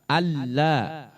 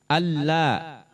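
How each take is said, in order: Both takes have the same delivery.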